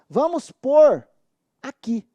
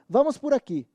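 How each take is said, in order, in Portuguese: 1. A palavra por é forte e tônica. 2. A palavra por é fraca e átona. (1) "O verbo tem um som forte" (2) "ela é tão fraquinha que ela soa escorada nas palavras em torno dela"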